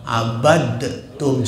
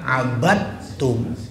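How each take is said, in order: First: The d sound is released with an echoing bounce. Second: The d sound disappears into the t. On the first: The speaker calls it wrong. "dia pakai kol-kolah abadtum, salah itu total" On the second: The speaker calls it right. "langsung keta abadtum"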